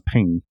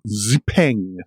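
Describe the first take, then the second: First: The name is said with lighter, plainer emphasis. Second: The name is said with strong, heavy emphasis. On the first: The speaker calls it right. "but it's Xpeng" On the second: The speaker calls it wrong. "Possibly not with quite as much emphasis"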